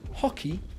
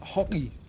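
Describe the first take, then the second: First: The middle consonant is a clear k sound. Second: The middle consonant sounds like a g.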